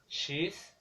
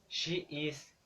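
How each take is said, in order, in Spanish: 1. Se dice como una sílaba contraída. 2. Se dice como dos palabras completas. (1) "se convierten en" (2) "las combinaciones"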